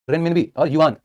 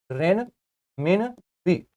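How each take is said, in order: First: Said in the usual way. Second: renminbi stretched very slowly, syllable by syllable; drawn-out drill. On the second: Shown as a demonstration. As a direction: draw out renminbi slowly for students to repeat. Teacher drilling currency name. (Renminbi को बहुत धीरे, खींचकर बोलना)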